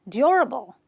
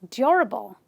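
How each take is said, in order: The two takes are said the same way.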